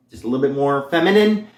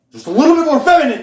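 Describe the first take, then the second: First: Said in the usual way. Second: Much higher, louder and fast, pushing into a feminine register; more feminine voice. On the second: Shown as a demonstration. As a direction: lift it high and quick to sound feminine. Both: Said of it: "that's all I'm going for".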